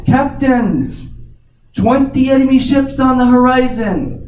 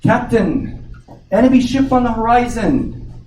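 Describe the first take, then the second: First: Much higher and louder alarm call; lookout yelling down. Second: Higher, calling up to the captain from the crow's nest; a sailor's alert, pitched high; lookout calling down. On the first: Lookout yells down to the captain, loud high alarm. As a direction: shout it down from the crow's nest in alarm. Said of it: "yells down again". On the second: Lookout calls to the captain, high alert call. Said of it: "the lookout in the crow's nest says". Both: Acted.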